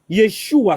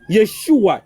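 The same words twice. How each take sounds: The two takes are said the same way.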